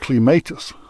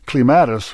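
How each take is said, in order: First: It uses the Scottish pronunciation of the word. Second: It uses the American pronunciation of the word. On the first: "which the Scots say" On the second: "which Americans and Hoosiers say"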